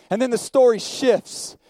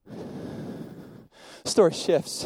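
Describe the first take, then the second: First: Said in the usual way. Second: Slow, breathy whispered repeat. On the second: Acted. Preacher to the congregation, repeating it in a slow whisper.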